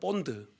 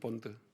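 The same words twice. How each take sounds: First: The word is said with strong, forceful emphasis. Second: The word is said in a plain, normal way.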